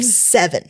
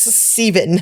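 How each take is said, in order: First: The word is said in a standard accent. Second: The word is said in a New Zealand accent. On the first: This is how the speaker expects it said. "instead of seven" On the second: This is how people there say it. "who says Seven"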